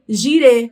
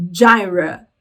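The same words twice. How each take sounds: First: "girê" said the Portuguese way, stress on the final ê; Portuguese pronunciation. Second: "gyra" said the English way, as JAI-ra; English pronunciation. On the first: Teacher giving students the Portuguese form of the name, Portuguese pronunciation of "girê". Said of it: "Só muda aí a pronúncia". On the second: Teacher showing how English says the name, English pronunciation of "gyra". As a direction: stress the first syllable of "gyra", a JAI sound. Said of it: "Em inglês se diz". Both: Shown as a demonstration.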